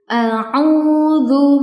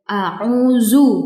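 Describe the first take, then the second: First: The last consonant is a soft dh sound. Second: The last consonant is a z sound. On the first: The speaker calls it right. "cara bacanya seperti ini" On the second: The speaker calls it wrong. "bukan ya"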